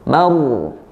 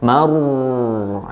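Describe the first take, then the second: First: The final r sound has a moderate length. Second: The final r sound is held too long. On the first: The speaker calls it right. "Tapi pertengahan, ya, tadi tawassut" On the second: The speaker calls it wrong. "aliran suaranya jadi jadi terlalu lama"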